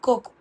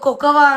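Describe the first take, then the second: First: The word ends plainly on 'ko' without 'va'. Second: The word ends with an added 'va' syllable. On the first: The speaker calls it right. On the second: The speaker calls it wrong.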